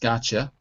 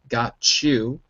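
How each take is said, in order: First: The words blend quickly with a ch sound. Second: The two words are said separately and slowly.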